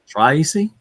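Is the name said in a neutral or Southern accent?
Southern. The name is said in a Southern drawl.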